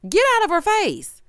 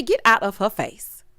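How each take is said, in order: First: High, emphatic telling-off; exasperated high-pitched command; sharp scolding. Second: Said in the usual way. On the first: Real, not acted. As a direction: raise the pitch and order him away. Repeats the telling-off, escalated.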